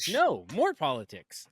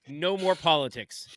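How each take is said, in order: First: It is said with a pause after no. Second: It is said without a pause after no.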